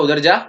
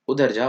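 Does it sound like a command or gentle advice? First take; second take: command; advice. First: It sounds like a firm, authoritative command. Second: It sounds like friendly, gentle advice.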